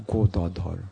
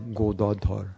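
First: The name is said with a Bengali pronunciation. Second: The same.

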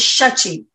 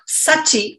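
First: The name begins with an sh sound. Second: The name begins with a plain s sound. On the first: The speaker calls it right. "it's shachi" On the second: The speaker calls it wrong. "it's not sachi"

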